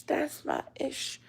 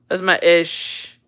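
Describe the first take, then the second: First: Whisper. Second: Said in the usual way. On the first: Real, not acted. Repeating catchphrase, dropping to whisper.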